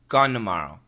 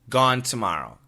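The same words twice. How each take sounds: First: Tomorrow starts with an N sound. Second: Tomorrow starts with a clear T sound. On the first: "Gone n n" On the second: "Number one, gone t t t"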